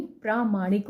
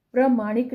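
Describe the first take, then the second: First: प्रामाणिक with a long आ in प्रा; correct long vowel. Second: प्रमाणिक with a short अ in प्र; wrong short vowel. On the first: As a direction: stretch the first vowel of प्रामाणिक. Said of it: "प्रामाणिक होता है". (प्रामाणिक में 'प्रा' लंबा बोलें) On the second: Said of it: "प्रमाणिक नहीं". (प्रमाणिक में 'प्र' छोटा बोलें) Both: Shown as a demonstration.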